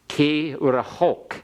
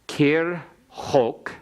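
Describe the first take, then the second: First: A short vowel is heard right after the r. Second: The r closes the syllable with no vowel after.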